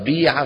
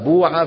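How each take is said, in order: First: The first vowel is a pure i sound. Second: The first vowel is a pure u sound. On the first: This is the common dialect form. "ما بقي إلا جماعة بيع" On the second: This is a dead dialect form of some tribes. "بوع هي ايش؟ قولة"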